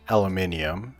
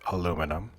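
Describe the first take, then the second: First: It is said with a British pronunciation. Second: It is said with an American pronunciation.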